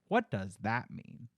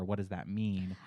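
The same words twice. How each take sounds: First: It is asked in a passive-aggressive tone. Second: It is asked in a neutral, sincere tone.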